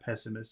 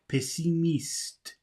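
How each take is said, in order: First: The word is said with English pronunciation. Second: The word is said with French pronunciation. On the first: The speaker calls it wrong. "like it would be in English pessimist" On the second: The speaker calls it right. "it's pessimiste"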